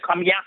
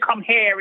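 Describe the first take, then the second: First: It is said in a local Caymanian accent. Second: It is said in a careful standard accent. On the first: It is the usual local way of saying it. "instead of" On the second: It sounds like trying to speak properly. "how he trying to speak"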